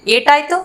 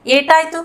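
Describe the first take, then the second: No difference in how they are said.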